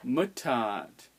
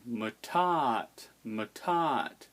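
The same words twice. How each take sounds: First: "Mutat" with MU pitched up; stress on first syllable. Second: "mutat" as muTAT; stress on second syllable. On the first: Teacher showing stress on barred I, MUtat. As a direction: punch the first vowel of "Mutat", then fall. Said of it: "The stress is on the barred I". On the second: Teacher showing stress moved onto the A, muTAT. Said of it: "If it was on the A". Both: Shown as a demonstration.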